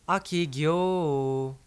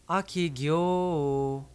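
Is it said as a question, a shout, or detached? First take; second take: detached; detached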